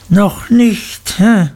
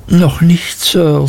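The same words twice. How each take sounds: First: Mocking repeat. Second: Higher, timid answer while flinching; boy answering the headmaster while his ear is pinched; boy in pain. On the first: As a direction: throw the boy's words back at him cruelly. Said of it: "wiederholte Mister Creakle". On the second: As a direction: shrink back and answer politely. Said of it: "sagte ich, vor Schmerzen zurückweichend". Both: A narrator's reading.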